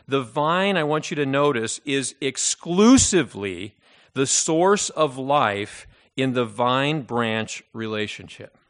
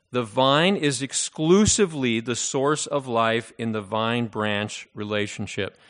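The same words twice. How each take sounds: First: SOURCE stressed, slowed: "the source of life"; slow emphasis on "source" so they fill the blank. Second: "exclusively" stressed, drawn out; emphasis on the blank. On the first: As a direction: lean hard on the word "source" in "is exclusively the source of life". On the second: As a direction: lean on "exclusively" in "The vine is exclusively the source of life". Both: Shown as a demonstration. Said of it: "put the proper emphasis on the proper syllable".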